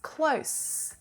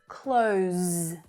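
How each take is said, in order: First: It ends with an unvoiced s sound. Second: It ends with a voiced z sound. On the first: It is the adjective, meaning nearby. "this is the unvoiced sound" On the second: It is the verb, meaning to shut something. "that z voiced consonant sound"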